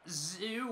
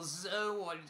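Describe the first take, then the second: First: The name begins with a z sound, rhyming with too. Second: The name begins with a z sound, two syllables. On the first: "not Zoo" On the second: "or Zoe"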